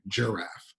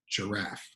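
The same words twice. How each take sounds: First: The stress is on the first syllable. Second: The stress is on the second syllable. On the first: The speaker calls it wrong. "We don't stress the first syllable, or it would sound like giraffe" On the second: The speaker calls it right. "giraffe has a stress on the second syllable"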